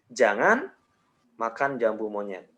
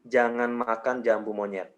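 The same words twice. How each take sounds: First: There is a pause after jangan. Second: The sentence is said without any pause. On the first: "jedanya gue kasih di jangan" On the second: "nggak pakai jeda"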